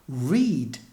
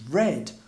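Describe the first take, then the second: First: The vowel is a long ee sound. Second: The vowel is a short e sound. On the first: It is the present tense. "Read becomes" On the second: It is the past tense. "although the spelling is the same"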